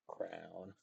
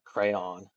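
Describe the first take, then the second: First: The word is said so it sounds like 'crown'. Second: The word is said so it sounds like 'crayon'. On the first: This is how the old teachers said it. The speaker calls it wrong. "We don't say crown" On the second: This is how we say it. The speaker calls it right. "We say like crayon"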